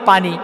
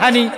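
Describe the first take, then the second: First: The word starts with a p sound. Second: The word starts with an h sound. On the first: This is how people from another region say it. "বগুড়ার লোক পানিকে বলে পানি" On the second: This is how people from one region say it. "নোয়াখালীর লোক পানিকে বলে হানি"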